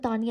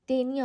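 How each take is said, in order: First: The first vowel sounds like 'ah'. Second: The first vowel sounds like 'ay'. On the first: "मैं तो तानिया ही प्रोनाउंस करती हूँ" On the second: "तेनिया होता है वैसे तो"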